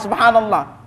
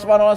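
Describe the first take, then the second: First: The word is said slowly and carefully. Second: The word is said quickly and hurriedly. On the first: The speaker calls it right. "Enggak mungkin ada baca subhanallah" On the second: The speaker calls it wrong.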